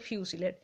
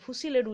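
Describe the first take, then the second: First: The first syllable is said as 'fyoo' with y. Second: The first syllable is said as plain 'foo'. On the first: The speaker calls it right. "ওটা ফিউসিলেড" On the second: The speaker calls it wrong. "ফুসিলেড উচ্চারণ নয়"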